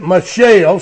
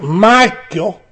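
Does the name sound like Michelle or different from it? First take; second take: Michelle; different. First: The name sounds like Michelle. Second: The name does not sound like Michelle. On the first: The speaker calls it wrong. "I heard one fellow pronounce it Michelle so they'd know it was a girl" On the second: The speaker calls it right. "I think it should be pronounced Michal"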